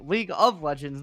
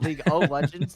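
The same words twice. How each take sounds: First: The first word sounds like 'league'. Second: The first word sounds like 'Lego'. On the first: The speaker calls it right. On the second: The speaker calls it wrong.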